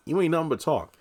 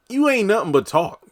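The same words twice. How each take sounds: First: Raised pitch, easing-off scoff; toned-down taunt. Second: High-pitched scoffing retort; mock taunt. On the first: Retold or imitated. Recapper dismissing Victoria's threat, toned-down taunt. Same retort repeated more softly. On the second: Recapper answering Victoria's threat, high mock taunt. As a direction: throw it out high and punchy, calling a bluff.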